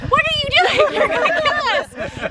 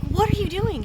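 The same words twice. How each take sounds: First: Much higher and louder, a full alarmed shout; panicked yell. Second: Startled question. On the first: Scolding mom after her sudden swerve, alarmed shout. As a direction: yell it like the car's about to crash. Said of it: "angry in a different way". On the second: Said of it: "And I was like". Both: Retold or imitated.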